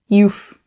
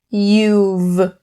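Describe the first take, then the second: First: The word ends with an f sound. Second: The word ends with a v sound. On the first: The speaker calls it wrong. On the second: The speaker calls it right.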